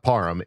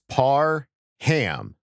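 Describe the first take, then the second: First: The stress is on the first syllable. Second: The stress is on the second syllable. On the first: The speaker calls it wrong. "it's not Parham" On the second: The speaker calls it right. "it's Par Ham. Emphasis on the ham"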